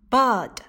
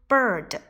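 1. 发音时不带r音。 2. 发音时带卷舌音r。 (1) "同样它们的英式发音" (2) "我都是使用的美式发音"

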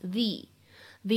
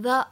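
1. 这个词听起来像 'thee'，元音很长。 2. 这个词听起来像 'thuh'，元音很短。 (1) "需要读成the idea" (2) "不能读成the"

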